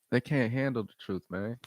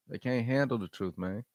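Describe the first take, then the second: No difference in how they are said.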